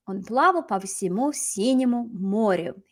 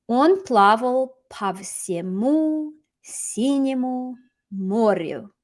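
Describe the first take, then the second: First: Said in the usual way. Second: Slow, word by word with gaps; slow model reading. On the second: Shown as a demonstration. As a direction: draw out each word for learners. Teacher models sentence slowly, then repeats.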